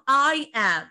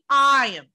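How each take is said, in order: First: The two words are said slowly and separately. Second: The two words are said quickly together. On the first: The speaker calls it wrong. "Not I am" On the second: The speaker calls it right. "Go faster in it"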